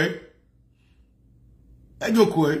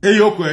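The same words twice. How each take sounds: First: Et yo quoi? stretched very slowly; a long, slow, dragged-out challenge; drawn-out question. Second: Et yo quoi? snapped out louder; a punchy, loud challenge; sharp demand. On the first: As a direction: let each word hang for emphasis. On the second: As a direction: fire it at them. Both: Shown as a demonstration. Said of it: "repeats the question differently".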